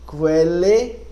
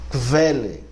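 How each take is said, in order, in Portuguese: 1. O k é seguido de um som u. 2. O k é seguido de um som v. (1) "Q, U mesmo, fica Q, U" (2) "encontrar eventualmente o som de Q V"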